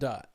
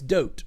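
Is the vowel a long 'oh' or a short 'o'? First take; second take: short o; long oh. First: The vowel is a short 'o' sound. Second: The vowel is a long 'oh' sound. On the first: The speaker calls it wrong. "not dot" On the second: The speaker calls it right. "It's dote"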